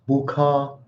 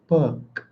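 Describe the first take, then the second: First: The final K bursts out with a strong puff. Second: The final K is soft and barely released. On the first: The speaker calls it wrong. "It's not book" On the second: The speaker calls it right. "You see how light the K is?"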